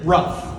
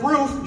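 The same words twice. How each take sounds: First: "rough" for roof, with a short uh vowel; "rough", short vowel where roof has a long oo; mispronounced roof. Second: Said in the usual way. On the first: Shown as a demonstration. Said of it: "she pronounces it rough". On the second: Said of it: "doesn't know how to say things properly".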